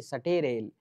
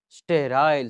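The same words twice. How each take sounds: First: सटेरेल split Hindi style, sa-te-rel; Hindi memory form. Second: स्टेराइल said as one English word, st-rile. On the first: Teacher turning the word into a Hindi memory trick, सटेरेल split into syllables. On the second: Teacher giving the English word before the trick, स्टेराइल said the English way. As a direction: say स्टेराइल the English way, ster-aisle. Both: Shown as a demonstration. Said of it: "यानी सटेरेल".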